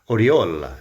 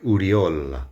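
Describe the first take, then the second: First: The name starts with an 'o' vowel sound. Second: The name starts with a 'u' vowel sound.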